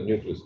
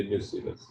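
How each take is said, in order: First: न्यूक्लियस said as nyoo-klee-us, the wrong way; wrong pronunciation. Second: न्यूसिलस said as nyoo-si-lus, the right way; correct pronunciation. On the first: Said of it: "तो वो गलत है". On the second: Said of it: "ये न्यूसिलस है". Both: Shown as a demonstration.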